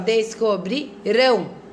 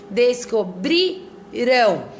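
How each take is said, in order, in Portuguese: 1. A sílaba tônica está na última sílaba. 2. A sílaba tônica está na penúltima sílaba. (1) "E depois ... Qual é o mais forte, ó?" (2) "no passado ... qual é a sílaba tônica que eu tô falando mais forte?"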